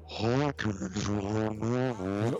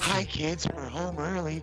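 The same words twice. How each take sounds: First: It is said slowly, in a changed voice. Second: It is said at normal speed.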